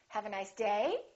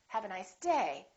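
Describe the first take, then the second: First: The pitch rises at the end. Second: The pitch falls at the end. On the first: The speaker calls it wrong. "I'm not going to say" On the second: The speaker calls it right. "my voice is still going down even though I'm stressing the word"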